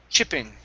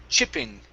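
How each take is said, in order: No difference in how they are said.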